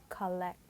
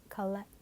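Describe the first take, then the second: No difference in how they are said.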